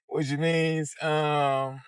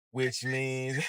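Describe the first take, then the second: First: Repeated with a laugh, higher pitch. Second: Said in the usual way. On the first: Real, not acted. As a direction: laugh through the words.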